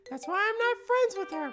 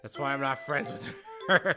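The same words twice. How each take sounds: First: It is read in a put-on character voice. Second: It is read in the speaker's normal voice.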